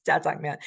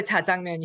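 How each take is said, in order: First: Jajangmyeon with a tense jj at the start; preferred pronunciation. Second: Jajangmyeon with a plain j at the start; spelled pronunciation. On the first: Teacher gives the preferred way, tense-consonant jjajangmyeon. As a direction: say it as jjajangmyeon, with a tight first consonant. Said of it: "my preferred way is". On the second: Teacher reads out the spelling shown, plain-consonant jajangmyeon. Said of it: "I spell the jajangmyeon here". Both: Shown as a demonstration.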